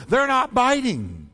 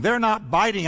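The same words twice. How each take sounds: First: THEY'RE NOT BITING drawn out slow and higher; exasperated, spelled-out "They're not biting"; irritated Peter. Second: Mild irritation, kept moving; lightly exasperated fisherman; irritated Peter. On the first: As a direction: repeat "They're not biting" slowly, pitched up, for someone who didn't hear. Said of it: "I guess you didn't hear me". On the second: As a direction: report it with a touch of annoyance. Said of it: "You can almost hear the irritation in Peter's voice". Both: Acted.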